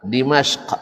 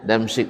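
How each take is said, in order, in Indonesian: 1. Nama ini dimulai dengan 'Dim' dan diakhiri dengan 'ashq'. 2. Nama ini dimulai dengan 'Dam' dan diakhiri dengan 'sik'. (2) "orang Melayu cakap Damsik"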